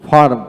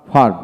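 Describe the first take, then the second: First: ফার্ম with the r sounded before m; r pronounced. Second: ফার্ম with the r almost dropped, long open a; r softened away. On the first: Teacher shows one of two pronunciations, ফার্ম with r. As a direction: let the r be heard in ফার্ম. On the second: Teacher shows the other pronunciation, ফার্ম without clear r. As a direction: let the r melt away in ফার্ম. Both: Shown as a demonstration. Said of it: "দুটি উচ্চারণ হয়".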